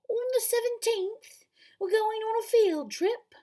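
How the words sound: It is said in a British accent.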